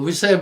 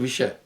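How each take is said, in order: First: The middle consonant is a plain 's' sound. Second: The middle consonant is an 'sh' sound. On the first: The speaker calls it wrong. "वो विषय बोल रहा था" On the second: The speaker calls it right. "जहां जहां श का प्रयोग आ रहा था, जैसे विषय"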